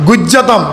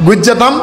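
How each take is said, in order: Both takes have the same delivery.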